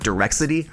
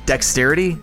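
First: The word is said with an r, as direxity. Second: The word is said with a k sound, as dexterity. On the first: The speaker calls it wrong. "I actually used to pronounce dexterity wrong. I used to pronounce it direxity" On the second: The speaker calls it right. "what? Dexterity?"

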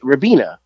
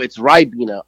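First: The first vowel does not sound like 'eye'. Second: The first vowel sounds like 'eye'. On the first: The speaker calls it wrong. "I said it how it's spelled" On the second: The speaker calls it right. "I don't see a Y there"

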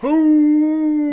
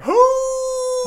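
First: The howl is pitched lower. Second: The howl is pitched higher.

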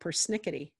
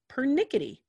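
First: The first syllable contains an added 's' sound. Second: The first syllable has no 's' sound. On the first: The speaker calls it wrong. "U.S. speakers always added the S" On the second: The speaker calls it right. "It's pernickety"

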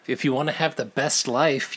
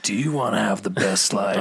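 First: It is said in a normal voice. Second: It is said in a very deep voice.

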